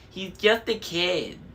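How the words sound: It is said in a high falsetto voice. It mocks what someone else said.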